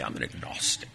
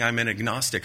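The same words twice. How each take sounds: First: Hushed, lofty know-it-all mock; a breathy, superior mock of the agnostic; mock intelligent tone. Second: Said in the usual way. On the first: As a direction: say it as if it sounds very clever. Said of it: "they say it in such an intelligent way". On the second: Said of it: "but they say it in such an intelligent way".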